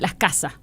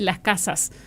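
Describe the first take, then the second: First: The s sounds are aspirated or dropped. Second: Every s sound is fully pronounced. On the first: The article already marks the plural, so the extra s is unneeded. "voy a tratar de emular" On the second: The plural is marked on every word. "lo que hace un montevideano cuando dice"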